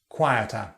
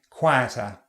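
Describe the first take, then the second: No difference in how they are said.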